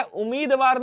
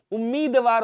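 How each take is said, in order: First: उम्मीदवार with a single m, "u-meed-vaar"; wrong form. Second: उम्मीदवार with a held double m; correct form. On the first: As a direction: say उम्मीदवार without doubling the m. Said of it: "उम्मीदवार नहीं होता है". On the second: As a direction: say उम्मीदवार as "um-meed-vaar". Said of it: "उम्मीदवार होता है". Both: Shown as a demonstration.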